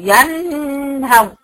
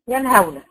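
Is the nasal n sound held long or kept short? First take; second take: long; short. First: The nasal n sound is held long. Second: The nasal n sound is kept short. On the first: The speaker calls it wrong. "لا انا وقفت عليها ولا ركنت ولا قلت ينهون" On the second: The speaker calls it right. "انا نطقتها بثلاثه بدون زمن وبدون ما امط فيها"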